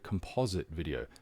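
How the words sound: Composite is said in an American pronunciation.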